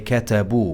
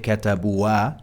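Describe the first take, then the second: First: The word ends on 'u' with nothing after it. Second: An extra final sound follows the 'u'. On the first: The speaker calls it right. "We say كتبوا" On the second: The speaker calls it wrong. "We don't say كتبوا"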